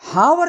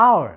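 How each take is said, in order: First: The word begins with an h sound. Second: The word begins with a vowel sound. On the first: The speaker calls it wrong. "उसमें हावर नहीं बोलते" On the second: The speaker calls it right. "इसको बोलते हैं आवर, क्योंकि इसमें एच silent रहता है"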